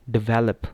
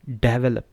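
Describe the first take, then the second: First: develop as "di-VEL-up"; weak first vowel, strong VEL in develop; stress on second syllable. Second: develop as "DEV-uh-lup"; stress on first syllable. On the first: Teacher showing the right stress, develop stressed second. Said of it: "दूसरे पे जब हम करते हैं". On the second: Teacher showing when it goes wrong, develop stressed first. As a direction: punch the front of develop. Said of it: "जब हम पहले पे स्ट्रेस करते हैं". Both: Shown as a demonstration.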